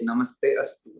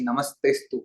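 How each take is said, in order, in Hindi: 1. यह दो अलग शब्दों में तोड़ा जाता है। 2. यह एक जुड़े हुए शब्द के रूप में बोला जाता है। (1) "अनेक व्यक्ति इस प्रकार से तोड़ते हैं" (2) "एक साथ ही नमस्तेस्तु होता है"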